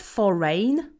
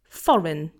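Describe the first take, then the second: First: The stress is on the second syllable. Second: The stress is on the first syllable. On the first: The speaker calls it wrong. "So it's not foreign" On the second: The speaker calls it right. "The stress is on the first syllable"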